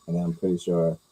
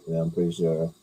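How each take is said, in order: Both takes have the same delivery.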